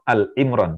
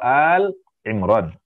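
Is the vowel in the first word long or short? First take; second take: short; long. First: The vowel in the first word is short. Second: The vowel in the first word is long. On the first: The speaker calls it wrong. "Jangan sebut surah Al Imran" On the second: The speaker calls it right. "hanya panjang duluan"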